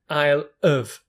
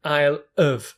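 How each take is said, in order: First: 'Have' is reduced, sounding like 'of'. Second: The same.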